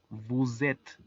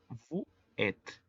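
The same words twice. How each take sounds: First: The words are linked with a z sound. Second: The words are separate with no z sound. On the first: "si lo leemos de manera corrida sería" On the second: "de forma aislada sería"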